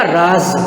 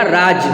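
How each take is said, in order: First: राज ending on z instead of j; nukta pronunciation. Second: राज ending on j, no z buzz; without nukta. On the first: Teacher shows students the word with nukta, राज ending in z. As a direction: say राज with a buzzing z at the end, "raaz". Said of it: "तो ये बोला जाएगा". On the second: Teacher contrasts word without nukta, राज ending in j. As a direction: say राज with a hard j at the end, "raaj". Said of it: "यही शब्द नीचे लिखा है बिना नुक्ता के". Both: Shown as a demonstration.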